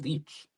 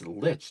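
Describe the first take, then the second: First: The vowel is long, as in 'leech'. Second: The vowel is short, as in 'itch'. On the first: The speaker calls it wrong. "I've been saying Leech" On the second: The speaker calls it right. "It's Lich"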